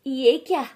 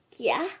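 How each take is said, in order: First: Shocked. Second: Said in the usual way. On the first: Acted.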